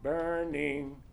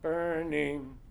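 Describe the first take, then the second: Both takes have the same delivery.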